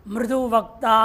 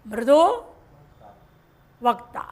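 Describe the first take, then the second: First: Said in the usual way. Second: मृदु ... वक्ता with a long pause between; words split apart. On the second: Shown as a demonstration. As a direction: say मृदु, stop, then वक्ता. (मृदु और वक्ता के बीच लंबा ठहराव)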